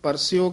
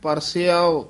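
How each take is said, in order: First: The word ends in a short 'io' sound. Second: The word ends in an 'iao' sound. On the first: The speaker calls it wrong. "ਇਹ ਵੀ ਆਮ ਪਾਠੀ ਸਿੰਘ ਪਰਸਿਓ ਕਹਿ ਜਾਂਦੇ ਹਨ" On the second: The speaker calls it right. "ਇਹਦਾ ਉਚਾਰਨ ਹੈ ਪਰਸਿਆਓ"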